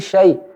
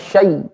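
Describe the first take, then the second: First: The syllable is said softly and gently. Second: The syllable is said harshly, without softness. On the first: The speaker calls it right. "di situ memiliki sifat lembut" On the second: The speaker calls it wrong. "jangan syai"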